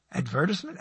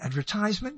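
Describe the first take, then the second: First: Advertisement stressed on VER, short "tis-ment"; stress on second syllable. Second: Advertisement with a long "tize" in the third syllable; long "tize" pronunciation. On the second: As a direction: say Advertisement as ad-ver-TIZE-ment, questioning. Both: Shown as a demonstration. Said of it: "another word that has different, um, um, accents".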